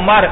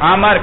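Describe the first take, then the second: First: The first vowel is a rounded u sound. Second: The first vowel is an open a sound. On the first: This is the correct form of the name. The speaker calls it right. "کہنا چاہیے تھا عمر" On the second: The vowel was shifted by the student's dialect. The speaker calls it wrong. "اور کہا کیا اس نے؟"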